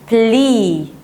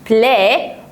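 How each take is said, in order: First: The vowel sounds like a long 'ee'. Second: The vowel sounds like a short 'eh'. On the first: This follows the spelling of the letters. "المفروض الاي ايه تنطق اي" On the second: This is how native speakers usually say it. "هما معتادين هما يقولوا بلا بلا"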